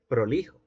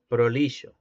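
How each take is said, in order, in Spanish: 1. La consonante del medio es un sonido 'h' áspero y gutural. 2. La consonante del medio es un sonido 'sh' suave. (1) "Y posteriormente" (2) "el fricativo posalveolar sordo suena así. Shh"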